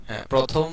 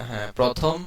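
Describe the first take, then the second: No difference in how they are said.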